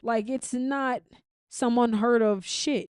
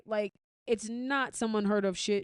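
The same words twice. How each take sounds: First: "Like, it's not some unheard of shit" slowed down, louder, every word leaned on; slow emphatic insistence. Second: Said in the usual way. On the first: Real, not acted. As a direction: drag out "not" and "unheard" and press them hard. Insisting crossover is nothing new.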